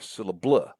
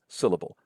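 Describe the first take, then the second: First: The stress falls on a later syllable. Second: The stress falls on the first syllable. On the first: The speaker calls it wrong. "Those would sound silly" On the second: The speaker calls it right. "It's syllable. Stress syllables, a stressed sound, and then unstressed, unstressed"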